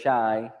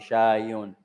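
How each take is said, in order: First: The word stops without the -un ending. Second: The word ends with a full -un ending. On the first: "you just didn't say the, the dhamma" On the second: "So I pronounce all the vowels"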